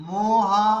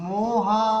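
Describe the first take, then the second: Both takes have the same delivery.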